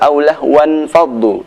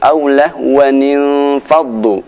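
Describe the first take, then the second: First: The words join without an added nun syllable. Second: The words join with an added 'ni' syllable. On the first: The speaker calls it wrong. "Tidak benar jika dibaca" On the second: The speaker calls it right.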